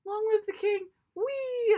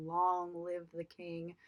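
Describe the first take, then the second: First: Versão boba, bem mais alta e aguda, terminando num wee; mocking silly version. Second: Ameaça baixa e lenta, arrastando as palavras; menacing Scar. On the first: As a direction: debochando da cena do remake, alegre e alto. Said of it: "this was just kinda like". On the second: Retold or imitated. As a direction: diga devagar, como um vilão que condena o irmão. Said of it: "in a very menacing tone".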